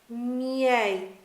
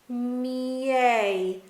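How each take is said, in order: First: The word is said at a medium speed. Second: The word is said slowly with sounds separated. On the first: "progressively say it faster" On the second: "split the sounds out"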